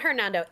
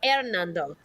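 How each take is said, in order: First: The name is said with English pronunciation. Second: The name is said with Spanish pronunciation. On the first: The speaker calls it wrong. "not Hernando" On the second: The speaker calls it right. "It's Spanish"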